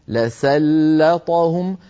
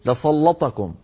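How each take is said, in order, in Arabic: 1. ينطق الصوتان l و s خفيفين ورفيعين. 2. ينطق الصوتان l و s ثقيلين وغليظين. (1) "لام مرققة، سين مرققة" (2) "قد تجر اللام التي قبلها إلى التفخيم"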